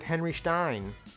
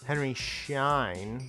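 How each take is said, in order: First: The surname starts with an 'st' sound. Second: The surname starts with an 'sh' sound. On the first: The speaker calls it wrong. "Actually, no" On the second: The speaker calls it right. "There's no T in there"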